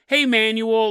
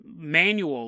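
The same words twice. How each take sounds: First: "Manuel" called out as a greeting; calling a name. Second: Said in the usual way. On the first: Shown as a demonstration. Host showing what the name is not, mock greeting to Manuel. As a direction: hail someone with "Hey, Manuel". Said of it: "It's not manual like". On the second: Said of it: "his name is just".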